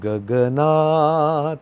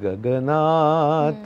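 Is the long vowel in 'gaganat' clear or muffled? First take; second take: clear; muffled. First: The long 'aa' vowel is clearly heard. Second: The vowels blur into a muffled neutral sound. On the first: The speaker calls it right. "तर तो आ ऐकू आला पाहिजे" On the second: The speaker calls it wrong. "नाहीतर कसं होतं की"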